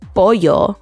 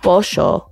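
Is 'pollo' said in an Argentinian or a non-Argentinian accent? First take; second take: non-Argentinian; Argentinian. First: It is said without the Argentinian accent. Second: It is said with an Argentinian accent.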